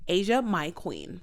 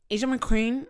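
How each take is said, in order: First: 'My' is said fully as a separate word. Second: 'My' is reduced, sounding like 'Mc'. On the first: The speaker calls it right. "It's Asia, the continent, my ownership, queen" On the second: The speaker calls it wrong. "I say my name wrong"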